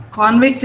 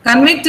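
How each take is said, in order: First: Convict as CON-vict; weight on CON in Convict; first-syllable stress. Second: Convict as cun-VICT; weight on VICT in Convict; second-syllable stress. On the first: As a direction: noun Convict, full first vowel. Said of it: "a noun". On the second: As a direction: verb Convict, weak first vowel. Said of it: "is a verb". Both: Shown as a demonstration.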